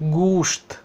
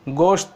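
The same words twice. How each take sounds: First: The first vowel sounds like 'oo' in 'food'. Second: The first vowel sounds like 'o' in 'go'. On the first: The speaker calls it right. "गाफ पेश, वाव साकिन" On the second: The speaker calls it wrong. "गोश्त नहीं है, गोश्त कहना ये गलत है"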